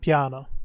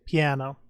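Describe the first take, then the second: First: The word is said with an Italian pronunciation. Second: The word is said with an American pronunciation. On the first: "I prefer to use the Italian piano" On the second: "If you want to Americanize the word, it's piano"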